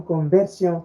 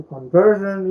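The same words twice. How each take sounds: First: First "conversion" said the French way, con-vair-syon; French pronunciation. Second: Said in the usual way. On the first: Shown as a demonstration. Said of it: "coming from conversion to conversion". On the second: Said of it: "from conversion to conversion".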